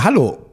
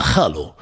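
First: Said in the usual way. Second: Much lower, curt hello; a low, clipped mock Russian mistress; stern domina. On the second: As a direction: answer like a cold, heavy dominatrix. The Russian domina greets back.

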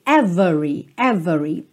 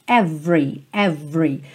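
First: "every" said as ev-e-ree, middle E sounded; teacher shows the emphatic "every" with the middle E; full three-syllable every. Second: "every" said as ev-ree, middle E dropped; teacher drills "every" with the middle E dropped; two-syllable every. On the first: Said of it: "ela é intencional e ela traz uma ênfase". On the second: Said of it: "Você pensa como se fosse V R". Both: Shown as a demonstration.

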